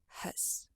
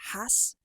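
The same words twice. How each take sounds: First: The word has a weak schwa vowel. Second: The word has a full, clear vowel. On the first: "they would say has" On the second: "Instead of has"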